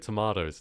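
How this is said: It is said in a non-American accent. This is how the speaker's own country says it. The speaker calls it right. "We say tomatoes"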